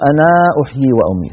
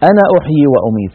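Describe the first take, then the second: First: The final vowel of 'ana' is long. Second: The final vowel of 'ana' is short. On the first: The speaker calls it wrong. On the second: The speaker calls it right.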